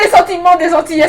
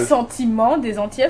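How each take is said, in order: First: It is said in an excited, overwrought way. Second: It is said in a calmer, less excited way.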